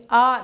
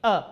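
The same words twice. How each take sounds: First: آ drawn out as a long "aa"; stretched long "aa" on آ; wrongly stretched vowel. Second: آ cut short as a brief "a"; quick short "a" on آ; short unstretched vowel. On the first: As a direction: hold آ long and loud, "aaa". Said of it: "جس کو زیادہ ہم کھینچ کے نہیں پڑھتے". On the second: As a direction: say آ short, without stretching it. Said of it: "extend کر کے نہیں پڑھیں گے". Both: Shown as a demonstration.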